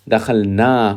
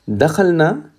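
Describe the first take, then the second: First: The final vowel is long. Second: The final vowel is short. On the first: We entered. "with the alif" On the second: A group of women entered. "means all of those females"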